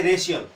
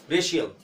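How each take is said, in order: First: रेशियल as "re-si-yal"; रेशियल with a plain s, not sh; plain s sound. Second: रेशियल as "re-shi-yal"; रेशियल with a sh replacing the plain s; palatal sh. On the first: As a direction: say रेशियल with s in the middle. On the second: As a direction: say रेशियल with sh in the middle. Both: Shown as a demonstration. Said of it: "तालव्य स".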